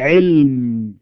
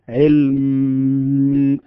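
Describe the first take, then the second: First: The final m sound is short. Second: The final m sound is held long. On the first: "نقول علم" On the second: "نريد أن نطول الصوت"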